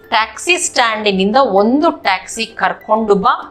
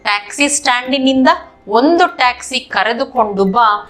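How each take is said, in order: First: The verb is shortened to 'karkondu'. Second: The verb is said in full as 'karedukondu'. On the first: This is the everyday spoken form. "ये spoken version में बोलते हैं" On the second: This is the bookish written form. "किताब version में नहीं तो पढ़ने लिखने के शैली में"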